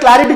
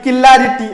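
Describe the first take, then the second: First: It begins with a tight 'cl' cluster. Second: It begins with 'ki' and an extra vowel. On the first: The speaker calls it right. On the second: The speaker calls it wrong.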